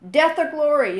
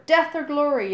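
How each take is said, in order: First: Much higher, much louder battle cry; yelling. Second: Much higher, much louder chant; fanatical yell. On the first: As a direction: roar it like a war chant. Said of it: "yelled Gobber". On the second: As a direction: shout it back with zeal. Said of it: "yelled eight boys back at him fanatically". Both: A narrator's reading.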